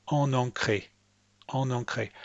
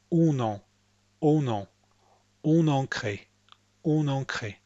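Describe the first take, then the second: First: ON EN CRÉE as "on-on-cré", both nasals alike; anglicised ON EN CRÉE, one repeated "on" sound; same vowel twice. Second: ON EN CRÉE with rounded "on" then open "an"; French "on-nan-cré" for ON EN CRÉE; two distinct nasals. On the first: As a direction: say ON EN CRÉE with ON and EN identical. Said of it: "make the same sound twice". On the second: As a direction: say ON EN CRÉE with rounded ON, linking N into a different EN. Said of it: "Instead, listen to the speaker. Notice that it's". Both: Shown as a demonstration.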